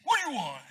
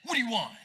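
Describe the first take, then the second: First: Snapped much higher and louder; teen sassing a parent; rude kid retort. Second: Snapped, louder and higher; disrespectful kid snapping at parent; rude retort. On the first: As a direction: fire it back disrespectfully. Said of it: "that kind of disrespect". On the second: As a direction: bark it back at your dad rudely. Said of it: "It would be like this". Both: Retold or imitated.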